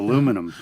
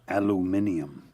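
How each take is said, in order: First: The word is said the American way, with four syllables. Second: The word is said the British way, with five syllables. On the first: "instead of" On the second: "England's aluminium"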